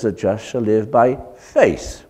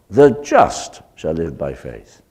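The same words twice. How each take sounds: First: The stress is on the word faith. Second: The stress is on the word just.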